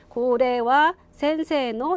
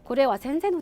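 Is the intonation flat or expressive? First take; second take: flat; expressive. First: The pitch stays level through the phrase. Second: The pitch moves expressively through the phrase. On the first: The speaker calls it wrong. "이렇게 하지 마시고" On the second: The speaker calls it right. "억양도 막 주시는 거예요"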